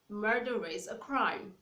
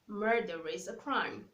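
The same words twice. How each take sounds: First: The R is linked into the following vowel. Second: The R is linked into the following vowel.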